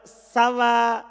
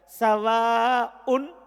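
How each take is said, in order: First: It ends on an open long vowel sound. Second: It ends with a glottal stop and a case ending. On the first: The case ending is hidden. "kalau antum baca sawa pakai alif, maka tidak nampak harokatnya" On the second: The case ending is visible. "Kalau antum baca sawaun, maka nanti un, an, in. Nampak"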